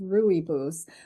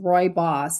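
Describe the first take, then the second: First: The first syllable does not sound like 'Roy'. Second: The first syllable sounds like the word 'Roy'. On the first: The speaker calls it wrong. "I thought it was pronounced Rooibos" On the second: The speaker calls it right. "I heard them pronounce it as Roy Boss"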